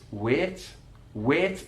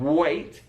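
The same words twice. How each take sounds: First: Wait with a pure flat eh vowel; Mackem wait. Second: Wait with a gliding ay diphthong; standard wait. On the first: Teacher showing the Mackem flat vowel in wait. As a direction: flatten the vowel of wait to one steady eh, Mackem style. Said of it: "monophthong singular vowel sound". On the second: Teacher giving the standard ay in wait for contrast. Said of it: "instead of wait". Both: Shown as a demonstration.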